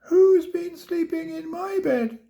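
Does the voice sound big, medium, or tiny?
tiny. It is squeaked in a tiny, high voice.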